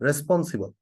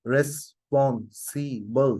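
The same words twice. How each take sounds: First: Said in the usual way. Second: responsible very slowly split as রেস-পন-সি-বল; syllable by syllable. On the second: Shown as a demonstration. Teacher shows a long word's syllables, responsible said syllable by syllable. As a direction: sound out responsible in four separate beats, রেস, পন, সি, বল. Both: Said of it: "অনেকগুলো syllable না?".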